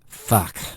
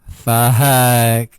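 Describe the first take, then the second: First: It sounds displeased. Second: It sounds joyful.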